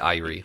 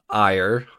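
First: The word is said with two syllables. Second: The word is said with one syllable. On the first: The speaker calls it right. "It's I-R-E, like two syllables" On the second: The speaker calls it wrong. "everyone would assume that would be pronounced ire"

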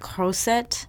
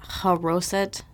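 First: The word begins with a rasping throat sound. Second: The word begins with a plain soft h. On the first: The speaker calls it right. "It's more like croset" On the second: The speaker calls it wrong. "I kind of mispronounced this out of habit"

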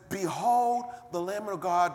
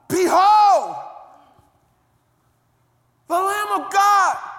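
First: It is said in a calm, matter-of-fact tone. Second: It is said in a sudden, astonished tone. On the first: It is a routine announcement. The speaker calls it wrong. "That's not how he said it" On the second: The speaker has just had a sudden realization. The speaker calls it right. "Let me show you how he said it"

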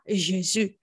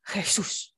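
First: The name is pronounced with French sounds. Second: The name is pronounced with Spanish sounds. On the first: This is not what the name is. The speaker calls it wrong. "Je m'appelle pas" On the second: This is the real name. The speaker calls it right. "Je m'appelle"

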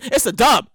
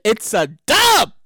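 First: It is said in the speaker's ordinary accent. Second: It is said in a put-on Brooklyn accent.

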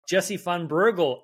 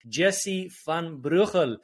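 First: The name is pronounced with an American accent. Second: The name is pronounced the native, non-American way.

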